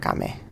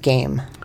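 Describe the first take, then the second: First: It sounds unlike the English word game. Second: It sounds like the English word game. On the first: The speaker calls it wrong. "not game" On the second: The speaker calls it right. "I think it's like video game"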